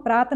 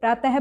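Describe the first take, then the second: First: प्रात ending with no h sound; without visarga. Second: प्रातः ending in a "ha" sound; visarga as h. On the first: Teacher shows the form to avoid, visarga dropped. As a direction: say प्रात without any breath at the end. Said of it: "प्रात ना बोल करके". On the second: Teacher shows the correct form, visarga as h. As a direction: finish प्रातः with an audible h. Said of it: "विसर्ग का जो उच्चारण होता है वो कुछ ह". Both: Shown as a demonstration.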